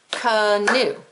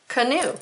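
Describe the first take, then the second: First: "Canoe" split into two slow beats, ca-noe; clapped-out syllables. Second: Said in the usual way. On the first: Shown as a demonstration. Teacher clapping out the word for pupils, "Canoe" in two separate syllables. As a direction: break "Canoe" apart, one beat per syllable. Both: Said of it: "let's clap it out".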